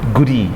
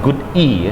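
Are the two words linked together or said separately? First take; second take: linked; separately. First: The two words are linked together. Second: The two words are said separately. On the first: The speaker calls it right. "Jadi goody disambung sama dia, connected speech" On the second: The speaker calls it wrong. "bukan good e ya"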